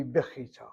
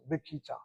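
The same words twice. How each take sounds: First: Bechita with a throaty KH in the middle; soft kaf. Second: Bikita with a plain K in the middle; hard K sound. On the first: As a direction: say bechita with KH, correcting the common K. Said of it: "But it should be bechita". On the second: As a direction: say bikita with K, the common way. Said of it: "familiar with the K sound". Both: Shown as a demonstration.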